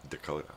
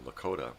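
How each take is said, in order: First: The word begins with a D sound. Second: The word begins with an L sound. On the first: "the Dakotas would pronounce it Dakota" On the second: "the Lakota Sioux, Sioux uh, would pronounce Lakota"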